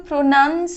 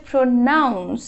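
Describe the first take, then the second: First: "প্রোনাউন্স" said pro-NUNS; "প্রোনাউন্স" with an uh vowel, no ow; wrong pronunciation. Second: "প্রোনাউন্স" said pro-NOUNS; "প্রোনাউন্স" with a full ow vowel; correct pronunciation. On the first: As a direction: say "প্রোনাউন্স" with nun as the second syllable. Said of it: "এটা কিন্তু প্রোনাউন্স হবে না". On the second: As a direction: say "প্রোনাউন্স" with noun as the second syllable. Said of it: "এটা হচ্ছে প্রোনাউন্স". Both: Shown as a demonstration.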